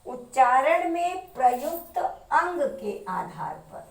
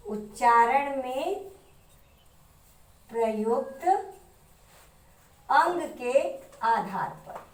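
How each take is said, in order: First: Said in the usual way. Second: Slowly, phrase by phrase with long pauses; slow dictation. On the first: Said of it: "heading first read normally". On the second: Shown as a demonstration. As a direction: dictate it for students to write down. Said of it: "heading repeated for dictation". (धीरे-धीरे, रुक-रुक कर लिखवाते हुए)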